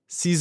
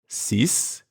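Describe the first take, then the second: First: Six is linked into the following word. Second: Six is said alone without linking. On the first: "six when it comes before heure" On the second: "the number six by itself"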